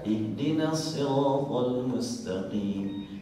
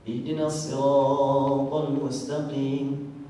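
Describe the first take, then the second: First: The long vowels are held for normal length. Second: The long vowels are stretched well beyond normal. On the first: The recitation keeps its proper length. The speaker calls it right. "Karena mestinya dua harokat" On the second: Extra length is added to the recitation. The speaker calls it wrong. "itu dilebih-lebihin itu"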